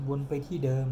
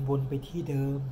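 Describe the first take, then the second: No difference in how they are said.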